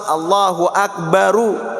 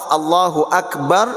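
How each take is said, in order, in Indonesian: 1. Berakhir dengan tambahan vokal u. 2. Berhenti pada bunyi r di akhir. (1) "Tapi kalau wasal" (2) "Kalau waqaf"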